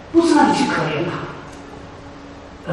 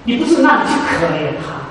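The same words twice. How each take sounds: First: Slow, hushed, stressing 不 in 不是让你去可怜他; 不是让你去可怜他 said slowly and hushed with 不 stressed; hushed emphasis. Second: Said in the usual way. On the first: Shown as a demonstration. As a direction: lean in and drop it to a near whisper, drawing out 不.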